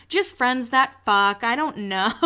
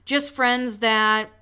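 First: Imagined awkward confession. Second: Drawn-out words left hanging unfinished; retold trailing off. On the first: Pretend. Podcaster imagining what she almost said, mock awkward confession. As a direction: draw it out, then let the last word soar playfully. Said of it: "ready for her to be like". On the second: Podcaster retelling her unfinished answer, slowly trailing off. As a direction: stretch it out and leave it dangling, imitating her. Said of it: "again, gets really quiet".

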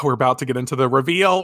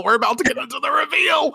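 First: Said in the usual way. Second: Squealing teaser for the reveal; excited shout. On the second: Shown as a demonstration. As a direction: hype the word reveal like a big announcement.

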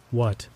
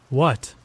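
First: Strained, disjointed single word. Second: Mildly shaken, startled question; shaky. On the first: Eerie stranger answering the delivery driver, strained. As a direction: force it out as if struggling to speak. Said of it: "His voice was strained, fragmented and disjointed". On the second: Stunned driver repeating the stranger's word, shaky. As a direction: blurt it back, a touch unnerved. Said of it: "my voice shaky". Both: A narrator's reading.

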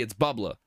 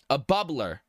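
First: Massachusetts accent. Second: Said in the usual way. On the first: Shown as a demonstration. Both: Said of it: "If I say it in Massachusettsy".

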